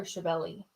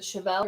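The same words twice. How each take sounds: First: Chevelle said as "shuh-VELL-ee"; alternative pronunciation. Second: Said in the usual way. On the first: Shown as a demonstration. Host asking which way to say it, Chevelle with an "ee" ending. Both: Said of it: "Is it Chevelle or Chevelle?".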